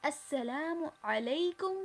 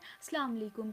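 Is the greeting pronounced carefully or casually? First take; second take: carefully; casually. First: The greeting is said with careful, full articulation. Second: The greeting is said in a casual, slurred form. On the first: The speaker calls it right. "सलाम की भी जो तजवीद है, जो प्रोनंसिएशन है, उसे सही से अदा करना है" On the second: The speaker calls it wrong. "कोई कहता है अस्सलाम वालेकुम, ये नहीं है सलाम का असल तरीक़ा"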